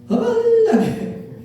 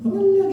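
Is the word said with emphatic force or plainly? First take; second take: emphatic; plain. First: The word is said with strong emphatic force. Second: The word is said plainly, without extra force.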